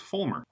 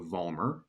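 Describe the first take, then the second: First: The name begins with an F sound. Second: The name begins with a V sound. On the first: The speaker calls it right. "in Germany, it's pronounced Fulmer with an F" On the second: The speaker calls it wrong. "I've been mispronouncing my name for my entire life"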